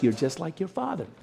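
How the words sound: The tone is warm and affectionate. Resembling your father is a good thing. "sometimes the tone is nice"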